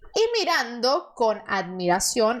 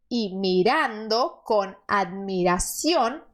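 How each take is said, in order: First: The phrase is read at normal speed. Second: The phrase is read more slowly.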